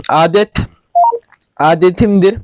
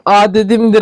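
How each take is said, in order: First: "Adetimdir" with a clear t; "Adetimdir" restated carefully with a hard t; self-corrected pronunciation. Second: "adetimdir" with the t softened to a d; voiced d in place of the t in "adetimdir"; slipped pronunciation. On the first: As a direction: correct it to "Adet", then "Adetimdir", t not d. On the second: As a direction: say "adetimdir" as adedimdir. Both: Real, not acted. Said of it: "Bir konuşmayı bilsem anlatacağım".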